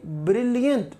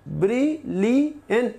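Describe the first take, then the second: First: Said in the usual way. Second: ब्रिलियंट said slowly as ब्रि-लि-यंट; slow syllable split. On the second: Shown as a demonstration. Teacher counting the three syllables for students, slowly. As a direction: pull ब्रिलियंट apart into three slow beats. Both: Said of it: "तो three syllables हैं".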